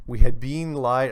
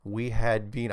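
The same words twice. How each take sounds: First: Slipping into a Soviet accent. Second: Said in the usual way. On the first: Shown as a demonstration. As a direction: read it with a Russian accent. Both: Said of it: "I am not gonna do the Soviet accent".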